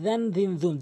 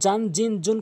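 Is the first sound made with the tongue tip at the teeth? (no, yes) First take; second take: yes; no. First: The first sound uses the tongue tip at the teeth. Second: The first sound is not made at the teeth. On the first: The speaker calls it right. "জিব্বার আগা দাঁতের আঙ্গার সঙ্গে মিলিয়ে" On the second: The speaker calls it wrong. "কখনোই বলবেন না"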